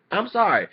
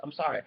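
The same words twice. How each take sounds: First: Exclaimed higher and louder; loud apology. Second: Said in the usual way. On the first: Real, not acted. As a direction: blurt the apology out. Loud apology mid rant.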